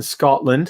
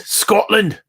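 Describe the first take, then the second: First: Said in the usual way. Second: Higher-pitched, hammed-up Scottish accent; terrible Scottish accent. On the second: Host echoing a viewer's homeland, in a terrible Scottish accent. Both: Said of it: "It's my terrible accent".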